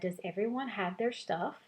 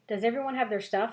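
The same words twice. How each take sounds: First: It is said calmly at normal volume. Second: It is yelled loudly and excitedly.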